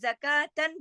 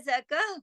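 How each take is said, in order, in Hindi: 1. शब्द नासिका वाली 'tan' ध्वनि पर खत्म होता है। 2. शब्द नरम 'h' ध्वनि पर खत्म होता है। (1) "इसी तरह ज़का ज़कातन जो है" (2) "वह ज़कह हो जाएगा"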